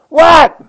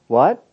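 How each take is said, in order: First: It is said in an annoyed, curt tone. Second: It is said in a warm, friendly tone. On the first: The responder is irritated at being called. "that's conveying a whole lot more things" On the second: The responder is glad to be called. "you like that response more"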